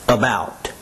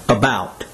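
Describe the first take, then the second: The two takes are said the same way.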